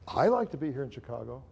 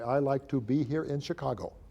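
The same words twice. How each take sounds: First: It is said with expressive, varied emphasis. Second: It is said evenly, with no expressive emphasis. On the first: The words carry a particular meaning. The speaker calls it right. "All those things mean something different" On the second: The words carry no particular meaning. The speaker calls it wrong. "I'm going to pronounce these words properly. ... That means nothing"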